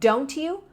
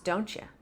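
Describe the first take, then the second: First: A plain T is followed by a Y sound. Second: The T and Y merge into a CH sound.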